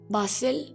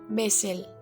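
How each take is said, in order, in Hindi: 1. यह ब्रिटिश लहजे में बोला गया है। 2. यह अमेरिकी लहजे में बोला गया है। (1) "British speakers pronounce this as basil" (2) "in American English they say basil"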